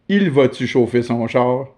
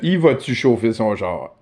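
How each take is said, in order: First: The first word is said in full as "il". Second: The first word is reduced to "i".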